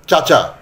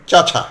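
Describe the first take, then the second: First: Said in the usual way. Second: চাচা with the second ch aspirated, cha-chha; mispronounced aspiration. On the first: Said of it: "এটা উচ্চারণ করতে গিয়ে". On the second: Shown as a demonstration. Teacher showing how the word goes wrong, চাচা aspirated as cha-chha. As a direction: say চাচা as cha-chha, adding a puff of breath. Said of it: "উচ্চারণ করতে গিয়ে হয়ে গেল".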